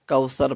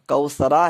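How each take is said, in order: First: The word ends on a bare consonant. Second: The word ends with a short vowel sound. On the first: The reader stops at this word. "रुकने की सूरत में हम कौसर पढ़ेंगे" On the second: The word is read as joined to what follows. "कौसरा है"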